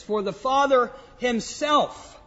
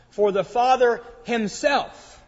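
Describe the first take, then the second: First: "For the Father himself" with weight on "himself"; emphatic himself. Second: "For the Father himself" slow, leaning on "himself"; stress on himself. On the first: Preacher quoting the verse again, stressing "himself". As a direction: land firmly on "himself". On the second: Preacher to congregation, drawing out "himself" with emphasis. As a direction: press down on "himself" to show the emphasis. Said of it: "There's an emphasis on the word himself". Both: Shown as a demonstration.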